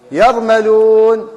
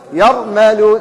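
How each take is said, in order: First: يرملون stretched very slowly, letter by letter; drawn out for the class to hear each sound; slow spelled-out word. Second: Said in the usual way. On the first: Shown as a demonstration. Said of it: "إيش رأي الكلمة هذه؟". (نطق بطيء جدا لكلمة يرملون) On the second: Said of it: "ما هي؟".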